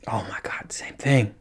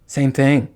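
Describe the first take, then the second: First: Whispered aside; hushed disbelieving whisper. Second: Said in the usual way. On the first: Real, not acted. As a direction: breathe it out unvoiced in disbelief.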